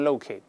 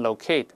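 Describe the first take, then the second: First: It is said with an American pronunciation. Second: It is said with a British pronunciation. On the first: "美式多读成locate 比较常见" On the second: "英国人一般多读成locate"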